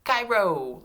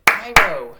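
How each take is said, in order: First: Cairo high and loud, in one piece; high, loud Cairo with a falling end; name called out. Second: Cairo in two very loud beats; clapped syllables. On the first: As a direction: call out Cairo whole for the class to echo. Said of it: "say this name with me". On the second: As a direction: clap out Cai-ro, a beat per syllable. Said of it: "Let's clap it". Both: Shown as a demonstration.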